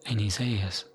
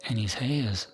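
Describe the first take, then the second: No difference in how they are said.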